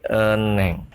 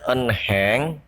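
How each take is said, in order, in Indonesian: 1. Bunyi h tidak terdengar di tengah. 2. Bunyi h terdengar di tengah. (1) "tapi eneng" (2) "Dibaca bukan enheng"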